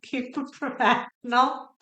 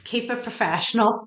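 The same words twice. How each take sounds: First: Laughing at herself while scolding. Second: Said in the usual way. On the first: Real, not acted. Tarot reader reining in her tears, laughing. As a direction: giggle through the self-reminder to stay serious.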